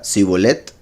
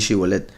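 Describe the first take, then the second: First: The word begins with an s sound. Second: The word begins with an sh sound. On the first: The speaker calls it wrong. "porque no podía pronunciarlo correctamente" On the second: The speaker calls it right. "antes era Shin"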